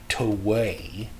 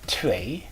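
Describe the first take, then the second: First: The w is pronounced as a strong w. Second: The w is pronounced like a v sound. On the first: The speaker calls it wrong. "You don't want to give the W a really strong W" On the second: The speaker calls it right. "if you can pronounce it like a V sound"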